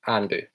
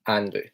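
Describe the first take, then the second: The two takes are said the same way.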